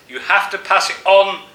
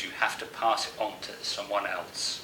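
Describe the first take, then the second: First: "You have to pass it on" called out much higher and louder, like an echo; a remembered voice echoing inside your head; echoing in the mind. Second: Said in the usual way. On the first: A narrator's reading. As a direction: let "pass it on" ring out as a haunting echo. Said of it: "echoing in your mind".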